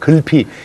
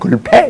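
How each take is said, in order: First: The final vowel sounds like ee. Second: The final vowel sounds like ay.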